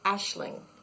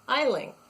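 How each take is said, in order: First: It begins like 'ash', with an sh sound. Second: It begins like 'aisle', with no sh sound. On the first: The speaker calls it right. "it's pronounced with an S H sound" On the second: The speaker calls it wrong. "I think of aisle, A I S L E, aisle. So I always pronounced it in my head"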